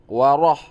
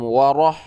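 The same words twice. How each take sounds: No difference in how they are said.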